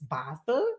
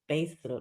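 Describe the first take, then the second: First: The name has a German pronunciation. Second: The name has an English-style pronunciation.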